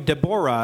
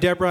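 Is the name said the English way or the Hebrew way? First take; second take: Hebrew; English. First: The name is pronounced the Hebrew way. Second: The name is pronounced the usual English way. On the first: The speaker calls it right. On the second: The speaker calls it wrong.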